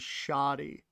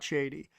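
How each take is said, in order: First: The first vowel sounds like 'ah'. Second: The first vowel sounds like 'ay'. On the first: The speaker calls it wrong. "I will always think S H A D I is shoddy" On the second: The speaker calls it right. "and not shady"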